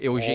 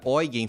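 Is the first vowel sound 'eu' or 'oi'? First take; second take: eu; oi. First: The first vowel sounds like 'eu'. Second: The first vowel sounds like 'oi'. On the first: The speaker calls it wrong. "e não mais" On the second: The speaker calls it right. "eu já tô feliz por falar agora"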